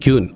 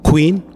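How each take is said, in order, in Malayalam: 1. ഈ വാക്ക് ky ശബ്ദത്തിലാണ് തുടങ്ങുന്നത്. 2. ഈ വാക്ക് kw ശബ്ദത്തിലാണ് തുടങ്ങുന്നത്. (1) "നമ്മൾ മിക്കവാറും എല്ലാവരും പറഞ്ഞ ക്യൂൻ" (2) "അതല്ല എൻ്റെ ശരി"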